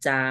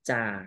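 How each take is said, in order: First: The syllable is said on a level mid tone. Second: The syllable is said on a low tone. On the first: "จออาจา" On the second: "ไม่เอกจา"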